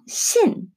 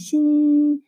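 First: The syllable is said in the fourth tone. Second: The syllable is said in the first tone. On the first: "사성" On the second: "일성"

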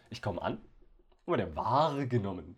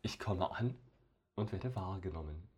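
First: The sentence sounds strained, with odd emphasis. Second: The sentence sounds natural and plain.

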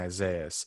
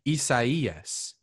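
First: The name is said with English-style sounds. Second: The name is said with Spanish-style sounds. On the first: The speaker calls it wrong. "That's not even how you say it" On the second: The speaker calls it right. "It's pronounced Hurricane Isaias"

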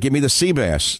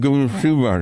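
First: It is said clearly, without the mask. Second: It is mumbled and muffled, as through a mask.

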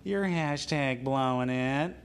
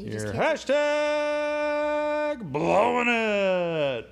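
First: It is said in a normal speaking voice. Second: It is said in a put-on character voice.

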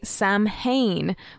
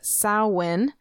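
First: It is pronounced in the American way. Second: It is pronounced in the Gaelic way.

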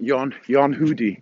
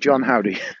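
First: The name is said with Swedish vowels. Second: The name is said with English vowels.

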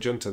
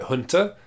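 First: The word starts with a J sound. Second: The word starts with a breathy H sound. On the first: It is read the way it is written on the box. "we just sound like reading it like it says on the box" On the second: It follows the original foreign pronunciation. "If we say, like, Hunter, and it's not actually pronounced that way, we sound like idiots"

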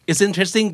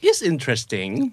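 First: It sounds genuinely enthusiastic. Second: It sounds doubtful, hinting at something bad.

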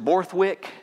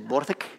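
First: It is said with an American accent. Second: It is said with a Scottish accent.

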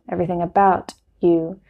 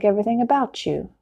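First: The T and Y stay separate sounds. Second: The T and Y blend into CH. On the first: "He doesn't say everything about you" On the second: "The T and the Y go together and make the CH sound"

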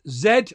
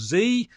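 First: The letter is said the British way, zed. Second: The letter is said the American way, zee.

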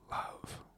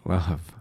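First: The word is said with a vulnerable tone. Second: The word is said with a joyful tone. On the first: "With some vulnerability" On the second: "With some joy"

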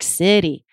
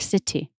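First: The T is a quick, single tongue flap. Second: The T is a full, released true T. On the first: The speaker calls it right. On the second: The speaker calls it wrong. "Wouldn't it sound strange if I made that a true T?"

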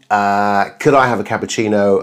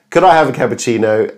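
First: It is spoken clearly with an open mouth. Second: It is spoken muffled with the mouth closed.

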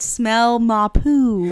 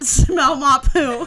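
First: The phrase is said slowly and drawn out. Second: The phrase is said at a normal speed.

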